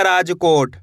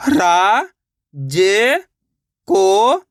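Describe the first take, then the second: First: Said in the usual way. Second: Rajkot split into रा, ज, को, ट with long pauses; syllable by syllable. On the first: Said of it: "तो मिलके बन जाएगा". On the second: Shown as a demonstration. Teacher showing learners how to read, Rajkot sounded out slowly syllable by syllable. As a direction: draw out each syllable of Rajkot separately, pausing between. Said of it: "एक एक अक्षर का उच्चारण करके".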